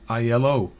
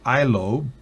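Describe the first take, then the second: First: Each letter is spoken separately. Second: It is said as a single word. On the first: The speaker calls it right. "pero no, es I L O" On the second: The speaker calls it wrong. "pudieran pronunciarlo I L O"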